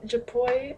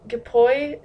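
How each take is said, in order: First: "japoi" softly with a zh sound, "zhuh-POY", quieter and rising; second guess. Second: "japoi" with a hard g, "gih-POY", slow and rising; unsure pronunciation. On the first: Vlogger retrying an unknown word, quieter soft-zh guess. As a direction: try "japoi" again with a soft zh, unsure. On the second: Vlogger guessing an unknown word for viewers, hard-g rising guess. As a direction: draw out "japoi" hard-g style, like a question. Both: Shown as a demonstration. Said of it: "I have no idea how that's pronounced".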